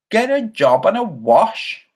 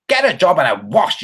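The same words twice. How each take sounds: First: Slower, higher disbelieving repeat; incredulous echo. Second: Said in the usual way. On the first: Real, not acted. Streamer repeating a viewer's insult, half amused. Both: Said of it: "somebody called Gas eight two eight two".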